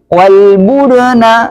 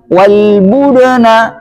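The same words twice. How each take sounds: The two takes are said the same way.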